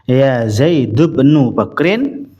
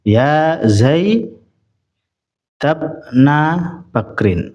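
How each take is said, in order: First: The name Zaid ends with a 'u' vowel. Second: The name Zaid ends with an 'a' vowel. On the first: "bisa dibaca dhammah" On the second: "bisa dibaca fathah"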